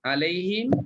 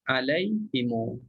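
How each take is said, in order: First: The word ends on the m sound. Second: The m is followed by a lengthened u vowel. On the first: This is the usual reading of the word. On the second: This is the reading of the al-Bazzi tradition.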